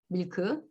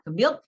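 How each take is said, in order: First: It is said as two syllables. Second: It is said as one syllable. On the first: "우리는 이 음절로 발음합니다" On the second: "한 음절입니다"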